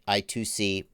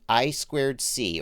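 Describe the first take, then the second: First: The middle part is said as 'two'. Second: The middle part is said as 'squared'. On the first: "or as I say it, I two C, but that's not the right way to say it" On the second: "those are the I squared C"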